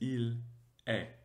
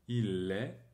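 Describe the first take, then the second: First: The two words are said separately, without linking. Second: The two words are linked together smoothly. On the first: The speaker calls it wrong. "on ne va pas dire il est" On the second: The speaker calls it right. "On va faire la liaison"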